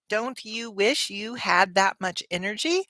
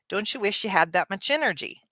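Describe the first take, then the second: First: Each word is said clearly and separately. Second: The words are fast and run together. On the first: "instead of saying" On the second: "I said it in a very fast way, but also with connected speech"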